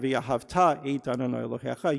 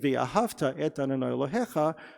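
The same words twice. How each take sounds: First: The stress in ve'ahavta falls on the last syllable. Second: The stress in ve'ahavta falls before the last syllable. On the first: It commands that you shall love God. The speaker calls it right. "The accent is on the last syllable" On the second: It says you loved God in the past. The speaker calls it wrong. "what you're saying is you loved God, past tense"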